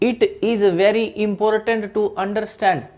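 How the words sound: It is spoken in a strong Indian accent. "दूसरा हो सकता है बिल्कुल एक ऐसा पूर्ण रूप से देशी"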